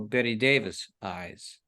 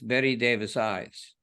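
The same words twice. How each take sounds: First: The main stress falls before the last word. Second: The main stress falls on the last word. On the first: The speaker calls it wrong. "a lot of people say it like you do" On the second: The speaker calls it right. "The accent's on eyes"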